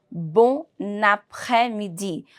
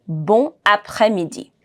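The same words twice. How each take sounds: First: Bon après-midi linked as "bo-naprè-midi"; with liaison. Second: Bon après-midi, N left silent between the words; no liaison. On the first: Teacher shows the connection between two words, with liaison. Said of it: "I need to merge the two words together". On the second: Teacher models it before fixing the problem, words unlinked. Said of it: "Repeat after me". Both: Shown as a demonstration.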